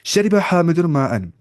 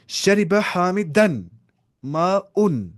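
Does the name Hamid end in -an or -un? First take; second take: -un; -an. First: Hamid ends in -un and water in -an. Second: Hamid ends in -an and water in -un. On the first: Hamid drank the water. "पिया हामिद ने पानी को।" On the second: The water drank Hamid. "अगर मैं ऐसे बोलूंगा ना"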